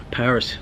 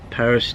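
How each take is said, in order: The two takes are said the same way.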